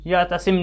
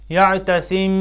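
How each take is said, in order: First: The final m is short, hard and not nasal. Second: The final m is soft, nasal and held longer. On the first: The speaker calls it wrong. "ऐसे नहीं पढ़ेंगे हम इसको" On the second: The speaker calls it right. "गुन्ना की सिफत को एक अलिफ के बराबर बढ़ाना है"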